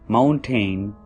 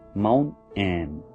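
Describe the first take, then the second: First: The T is a strong, clear T. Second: The T becomes a stop into an N. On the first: "we sound T very strongly, regular T" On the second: "T will sound like an N"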